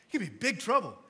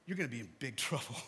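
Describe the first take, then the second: First: Louder, firm, no laugh now; emphatic warning. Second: Quick, lower, a laugh breaking into the warning. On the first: Pastor repeating the warning to the congregation, firm. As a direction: drive the warning home in earnest. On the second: Pastor warning the congregation with a laugh. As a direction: chuckle through the threat. Warning about judgment day. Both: Real, not acted.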